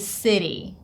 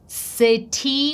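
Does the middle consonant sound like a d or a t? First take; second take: d; t. First: The middle t is a quick d-like flap. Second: The middle t is a clear t sound. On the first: The speaker calls it right. "a flap T sound that sounds like d" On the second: The speaker calls it wrong. "We don't say"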